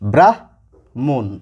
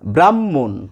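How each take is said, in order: First: The h sound comes before the m. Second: No h sound; a double m is heard. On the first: "প্রথমে কি রয়েছে? হ, পরে রয়েছে ম। তাহলে এই শব্দটির উচ্চারণ হওয়া উচিত" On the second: "দুটি ম উচ্চারিত হয় আমাদের সাধারণ কথাবার্তার সময়"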